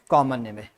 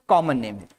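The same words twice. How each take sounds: The two takes are said the same way.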